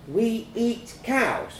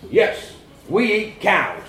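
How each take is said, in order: First: Put-on high, slow child's question; stunned child. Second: Loud, slow fatherly confirmation; exasperated dad. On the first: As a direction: ask it slowly in childish disbelief. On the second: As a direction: hammer it home slowly. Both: A narrator's reading.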